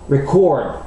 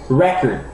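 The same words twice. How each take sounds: First: The stress is on the last syllable. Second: The stress is on the first syllable.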